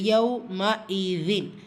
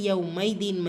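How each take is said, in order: First: A clear hamza separates the middle syllables. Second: The middle sounds run together without the hamza. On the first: The speaker calls it right. "இந்த இடத்துல ஹம்சாவுடைய உச்சரிப்பு சரிவர நீங்கள் உச்சரிக்கணும்" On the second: The speaker calls it wrong. "நிறைய பேர் பண்ணுற தவிர யவ் மைதீன் மைதீன்னு சேர்த்து சொல்கிறது"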